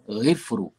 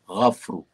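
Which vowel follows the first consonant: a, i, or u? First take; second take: i; a. First: The first vowel is i. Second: The first vowel is a. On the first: The speaker calls it wrong. "jangan baca ghifru" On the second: The speaker calls it right. "dengan baris atas pada huruf ghin"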